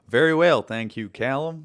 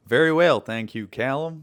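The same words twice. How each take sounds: First: It is said in a put-on American accent. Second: It is said in a put-on American accent.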